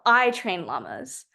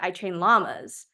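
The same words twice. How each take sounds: First: The stress is on the word I. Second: The stress is on the word llamas.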